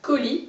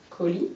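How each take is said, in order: First: "colis" split as co, pause, lis; split into syllables. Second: Said in the usual way. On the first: Shown as a demonstration. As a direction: break "colis" slowly into two separate syllables. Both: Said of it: "enlever la deuxième syllabe".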